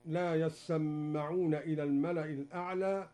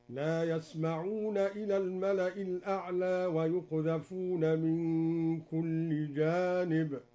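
First: Said in the usual way. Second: Slow chanted recitation with يسمعون said yasma'un; yasma'una with a silent s and a light m; Duri reading, recited. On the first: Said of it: "قرأ الدوري بسكون السين وتخفيف الميم". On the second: Shown as a demonstration. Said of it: "هكذا". (يسمعون بسكون السين وتخفيف الميم بترتيل)

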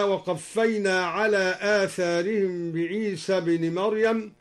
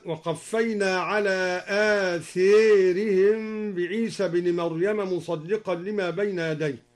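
First: Said in the usual way. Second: آثارهم with the a of tha leaned toward e, as atherihim; imala reading. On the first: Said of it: "قوله تعالى". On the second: Shown as a demonstration. Teacher showing students al-Duri's imala in آثارهم. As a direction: lean the long a in آثارهم toward e. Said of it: "أمال آثارهم هكذا".

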